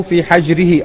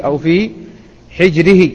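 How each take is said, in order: First: حجره with a short a after the ح, "hajrihi"; fatha on حجره. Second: حجره with a short i after the ح, "hijrihi"; kasra on حجره. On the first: Teacher retelling how the boy was seated, حجره said "hajrihi" with fatha. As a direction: say حجره with the ح opened by fatha, as "hajr". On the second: Teacher giving the alternative reading, حجره said "hijrihi" with kasra. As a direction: say حجره with the ح vowelled by kasra, as "hijr". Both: Shown as a demonstration. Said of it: "بفتح الحاء المهملة وكسرها".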